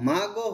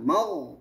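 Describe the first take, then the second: First: The gh sound is released into a vowel. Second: The gh sound is held steady without moving. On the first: The speaker calls it wrong. "এটা বেশিরভাগই ভুল হয় কিরকম হয় মাগো হয়ে যায়" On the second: The speaker calls it right. "ধরে রাখবে সাউন্ড নাড়ানো যাবে না"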